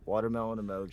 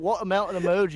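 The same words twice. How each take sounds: First: It is said in the speaker's normal accent. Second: It is said in a put-on British accent.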